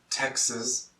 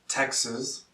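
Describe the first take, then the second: The two takes are said the same way.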